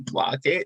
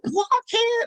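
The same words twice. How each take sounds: First: The word is said flatly, without expression. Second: The word is said with lively, animated expression. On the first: The reader is not engaged with the character. The speaker calls it wrong. "you don't say blockhead" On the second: The reader is playing the character. The speaker calls it right. "It's you blockhead"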